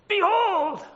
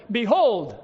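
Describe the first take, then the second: First: Behold! called out high, a big demo shout. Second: Said in the usual way. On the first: Shown as a demonstration. Preacher shouts the opening word to wake the congregation. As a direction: cry out Behold! to grab attention. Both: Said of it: "I'd like to shout really loud".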